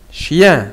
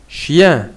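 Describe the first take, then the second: No difference in how they are said.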